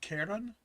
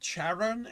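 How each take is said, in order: First: The word begins with a hard k sound. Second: The word begins with a soft ch sound. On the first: "and not Charon" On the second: "C H is not a hard K for me, which is why I'm always pronouncing it Charon"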